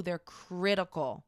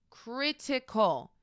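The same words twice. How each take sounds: First: Said in the usual way. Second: "Critical" drawn out slowly and higher; emphatic repeat. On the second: Real, not acted. Naming the second toxic trait, "Critical" slow and emphatic. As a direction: stretch "Critical" for emphasis, falling at the end.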